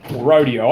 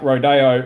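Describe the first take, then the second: First: It is said the American way. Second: It is said in a non-American way.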